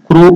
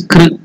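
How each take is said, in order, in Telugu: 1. k తర్వాత u అచ్చు ఉంటుంది. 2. k తర్వాత syllabic r ఉంటుంది. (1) "not Krishna or Krushna" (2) "It is Kr in between"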